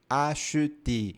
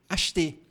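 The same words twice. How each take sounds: First: The word is said slowly and carefully. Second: The word is said quickly and casually. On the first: "quando nós falamos bem devagar, nós pronunciamos acheter" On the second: "A gente fala rápido"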